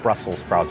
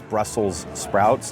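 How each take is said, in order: First: Brussels is said without a final s sound. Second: Brussels is said with a final s sound. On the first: The speaker calls it wrong. "not Brussels sprouts" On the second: The speaker calls it right. "there is an S there"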